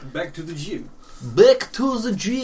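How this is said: It is spoken in a Russian accent. "That's a Russian one"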